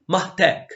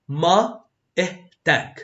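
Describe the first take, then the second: First: It is said faster, with the words run together. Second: It is said slowly, stressing each word. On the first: "and then a bit faster" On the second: "I always read the first two times a bit slowly and stress on the words"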